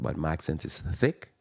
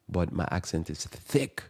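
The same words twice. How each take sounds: First: Said in the usual way. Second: Slower, with heavy weight on "thick"; stress on THICK. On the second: Retold or imitated. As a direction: lean hard on the word "thick", imitating her emphasis. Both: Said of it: "she emphasized the word thick".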